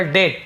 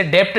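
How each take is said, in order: First: "डेट" with the B left silent; correct silent-B pronunciation. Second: "डेप्ट" with a sounded P before the final T; wrong pronunciation, P sounded. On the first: Teacher shows learners how debt is read, silent B in "डेट". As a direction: say "डेट", straight from vowel to T. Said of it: "बी silent होता है". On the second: Teacher shows learners the wrong reading, P sounded in "डेप्ट". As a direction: say "डेप्ट", voicing the silent letter as P. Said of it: "इसे डेप्ट नहीं पढ़ेंगे". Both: Shown as a demonstration.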